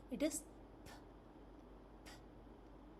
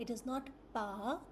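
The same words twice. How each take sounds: First: "p" as a soft unvoiced puff of air; just the breath of "p", no vowel; correct p sound. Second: "pa" with a vowel added; wrong p sound. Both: Shown as a demonstration.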